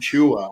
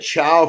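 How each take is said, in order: First: The name ends with an 'oo-ah' sound. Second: The name ends with an 'ow' sound. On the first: The speaker calls it right. "It's phonetically Chua" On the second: The speaker calls it wrong. "flip my last two letters"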